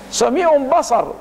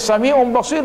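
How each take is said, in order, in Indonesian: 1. Vokal kedua dari kata terakhir adalah 'a'. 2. Vokal kedua dari kata terakhir adalah 'i'. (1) "dibaca Sami'un Basar" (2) "mestinya dibaca"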